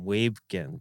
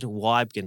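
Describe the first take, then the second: First: The first syllable rhymes with 'wee'. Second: The first syllable rhymes with 'why'. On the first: The speaker calls it wrong. "I was calling him Weebgen" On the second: The speaker calls it right. "think about, you know, who, what, why"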